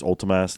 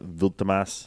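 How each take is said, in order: First: The name begins with an oo vowel sound. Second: The name begins with a v consonant sound. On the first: The speaker calls it right. "Ultimas with the U" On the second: The speaker calls it wrong.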